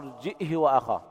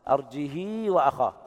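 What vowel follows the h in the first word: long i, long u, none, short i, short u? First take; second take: short i; long i. First: A glottal stop, then h with a short i. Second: The h is followed by a long i vowel. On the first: "بالهمزة مع إسكانها وكسر الهاء بدون صلتها" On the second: "كسر الهاء مع الصلة"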